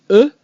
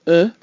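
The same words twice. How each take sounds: First: E with lips rounded and held still; French rounded e. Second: E said loosely, mouth unrounded; looser English vowel. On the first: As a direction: say E pure, mouth rounded and unmoving. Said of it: "the French version is, again, much more pure". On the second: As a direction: say E relaxed like the oo in look. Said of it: "The English version is much looser". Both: Shown as a demonstration. Teacher contrasting French and English vowels.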